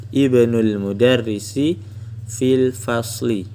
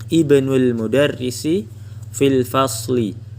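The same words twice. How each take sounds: Both takes have the same delivery.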